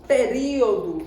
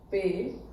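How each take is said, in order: First: Said in the usual way. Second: "Período" in separate syllables with long pauses; syllable separation. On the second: Shown as a demonstration. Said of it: "basta fazer a separação silábica". ("Período" em separação silábica, com pausas longas)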